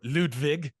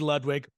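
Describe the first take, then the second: First: The name is said with a German-style pronunciation. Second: The name is said with an American pronunciation.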